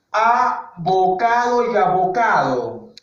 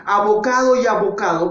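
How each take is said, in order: First: Slow, drawn-out ABOCADO Y ABOCADO; slow demonstration. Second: Said in the usual way. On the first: Shown as a demonstration. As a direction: stretch both "abocado" so each sound is heard. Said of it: "Escucha desde ahí". (abocado y abocado, pronunciado lento y alargado) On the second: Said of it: "¿Cómo es la pronunciación? Igual".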